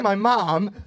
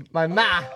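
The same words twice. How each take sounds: First: Said in the usual way. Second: "ma" as a clipped Italian-style "mah"; mock Italian accent. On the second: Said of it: "You Italian now?".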